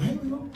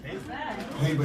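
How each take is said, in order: First: Higher, softer mock girl's voice saying "Hazel"; imitating the girl. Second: Said in the usual way. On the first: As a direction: lightly mimic how she says "Hazel", high and soft. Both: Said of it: "every time she said".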